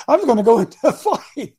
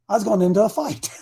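First: Laughing through the words, a bit higher and louder; laughing repeat. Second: Said in the usual way. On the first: Retold or imitated. Preacher retelling the warning to the congregation, laughing. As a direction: chuckle as you repeat the warning.

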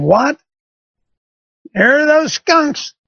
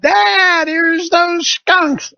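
First: High, slow incredulous echo of the words; disbelief. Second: High, drawn-out mock yell from down the street; daughter yelling. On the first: Retold or imitated. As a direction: repeat it back in stunned disbelief. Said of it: "I'm thinking". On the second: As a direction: call it up like a girl shouting from the front of the house. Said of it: "She yells up".

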